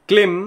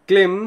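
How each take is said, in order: Both takes have the same delivery.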